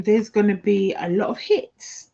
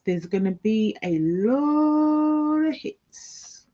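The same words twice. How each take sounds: First: Said in the usual way. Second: Slow, higher, stretched "lot"; higher slower repeat stressing "lot"; drawn-out emphasis. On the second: Shown as a demonstration. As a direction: lean into "lot of hits" slowly.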